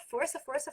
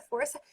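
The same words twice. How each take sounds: First: Said in the usual way. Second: Força pitched high with a rising finish; a firm father's nudge on força; urging force. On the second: Shown as a demonstration. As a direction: call out força like a pushing father. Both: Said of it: "o pai é, ó".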